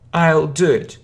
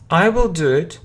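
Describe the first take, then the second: First: Will is shortened and joined to I. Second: The word will is said in full.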